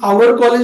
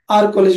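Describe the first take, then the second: First: "Our" has two syllables, like "ow-er". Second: "Our" has one syllable, like "ar". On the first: The speaker calls it wrong. "असं आवर college नाही म्हणायचं" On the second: The speaker calls it right. "आर college म्हणायचं"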